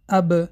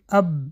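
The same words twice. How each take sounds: First: The lips part sharply, giving a bounce. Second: The lips stay closed, with no bounce. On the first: The speaker calls it right. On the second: The speaker calls it wrong.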